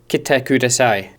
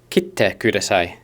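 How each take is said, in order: First: No pause comes before the t. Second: A short pause comes before the t. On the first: It asks someone to come. "please come" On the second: It asks someone to cut it. "there'd be a small um, pause"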